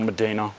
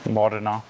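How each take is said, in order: First: The first vowel sounds like 'e'. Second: The first vowel sounds like 'o'. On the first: The speaker calls it wrong. "It's not Medina" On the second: The speaker calls it right. "how do you pronounce that again?"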